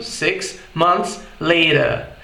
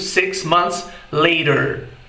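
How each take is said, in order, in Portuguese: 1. Isso é dito com sotaque britânico. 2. Isso é dito com sotaque americano. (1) "em inglês britânico soa como" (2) "soa no inglês americano como"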